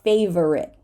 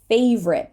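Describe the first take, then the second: First: Every syllable of the word is pronounced. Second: One syllable of the word is dropped. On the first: The speaker calls it wrong. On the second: The speaker calls it right.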